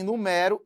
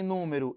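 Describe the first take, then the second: First: Verb "numero", nu-MÉ-ro; "numero" with weight on open MÉ; stress on ME. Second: Noun "número", NÚ-me-ro; "número" with weight on NÚ; stress on NÚ. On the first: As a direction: stress the middle syllable of "numero". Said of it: "eu tenho um verbo". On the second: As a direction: stress the first syllable of "número". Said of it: "eu tenho um substantivo". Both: Shown as a demonstration.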